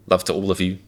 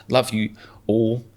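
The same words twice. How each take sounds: First: Said in the usual way. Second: Slow, stiff robotic delivery. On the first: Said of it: "Sounds more human being". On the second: Pretend. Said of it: "That sounds like a robot".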